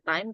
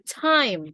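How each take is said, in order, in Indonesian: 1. T tidak memiliki letupan udara yang kuat. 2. T memiliki letupan udara yang kuat. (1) "Bukan time" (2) "tapi time ... Harus ada letupan"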